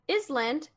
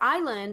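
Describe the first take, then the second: First: The S in the middle is pronounced. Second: The S in the middle is silent. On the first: The speaker calls it wrong. "I said island" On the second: The speaker calls it right. "no, it's island"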